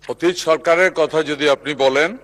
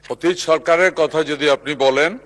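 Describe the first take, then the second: Both takes have the same delivery.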